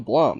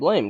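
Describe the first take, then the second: First: The vowel is an 'o' sound, as in 'blom'. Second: The vowel is an 'ay' sound, as in 'blame'. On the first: The speaker calls it wrong. "I ain't gonna call it no blom. That's that's weird" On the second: The speaker calls it right. "I think I'm still gonna call it blame"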